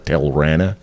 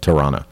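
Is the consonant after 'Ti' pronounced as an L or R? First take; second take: L; R. First: The consonant after 'Ti' is an L sound. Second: The consonant after 'Ti' is an R sound. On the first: The speaker calls it wrong. "I kept calling her Tilrana" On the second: The speaker calls it right. "they're saying, you know"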